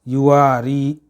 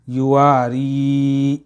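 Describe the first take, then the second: First: The long vowel is cut short. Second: The long vowel is stretched out. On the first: The speaker calls it wrong. "इतना ही, खींचते नहीं है, तो ये गलत हो जाता है" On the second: The speaker calls it right. "खींच के इसको पढ़ना है"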